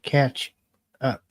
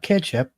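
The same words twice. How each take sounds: First: It is said clearly as 'catch up'. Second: It is said to sound like 'ketchup'. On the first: It means getting up to date. The speaker calls it right. "but catch up" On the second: It names the sauce. The speaker calls it wrong. "Not catch up, ... We're not pouring ketchup on our guest"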